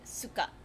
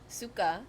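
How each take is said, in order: First: The word is said short and clipped. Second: The vowel is held a little longer. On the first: It means vinegar. "like it's staccato" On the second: It means vomit. "longer, little, like you hold onto the vowel a little bit longer there"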